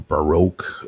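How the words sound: It is said in an American pronunciation.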